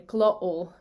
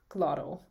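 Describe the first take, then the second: First: "glottal" with a throat catch for the T; glottal stop. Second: Said in the usual way. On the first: Shown as a demonstration. Teacher contrasting two takes, glottal stop. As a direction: cut the T from "glottal", pause in the throat. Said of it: "I say glottal instead of". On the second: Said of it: "instead of".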